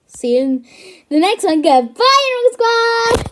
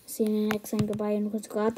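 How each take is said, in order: First: Loud, higher hyped sign-off; shouting the channel outro. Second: Said in the usual way. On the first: Acted. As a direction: bellow the catchphrase. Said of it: "What the frick was that?".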